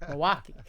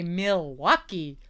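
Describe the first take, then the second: First: It is pronounced the way locals say it. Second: It is pronounced the way outsiders say it. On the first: This is how locals say it. The speaker calls it right. "we say Milwaukee" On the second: This is not how locals say it. The speaker calls it wrong. "we don't say Milwaukee"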